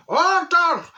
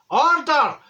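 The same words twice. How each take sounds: First: Higher, louder cry of Order; shouting order. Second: Sharp high call of Order; shouting order. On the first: Judge losing patience with the juror, shouted. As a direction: yell it over the chatter. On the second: Judge calling the court to order, shouted. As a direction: bang the gavel and yell it. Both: Retold or imitated.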